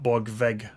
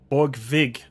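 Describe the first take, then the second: First: The last syllable has an 'e' vowel like 'beg'. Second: The last syllable has a short 'i'-like vowel. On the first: The speaker calls it wrong. "not Borgveg" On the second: The speaker calls it right. "Borgvig, not Borgveg"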